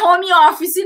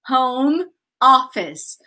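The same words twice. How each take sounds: First: It is said with a Brazilian Portuguese accent. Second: It is said with an English accent. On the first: The speaker calls it wrong. "Não é home office, não" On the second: The speaker calls it right. "É home, home office"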